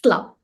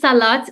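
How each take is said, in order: First: The word ends without any T sound. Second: The word ends with a clear T sound. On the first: This is how people in the region say it. "we don't really pronounce the T. So we say like salah" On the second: This is the standard form of the word. "It's normally salat"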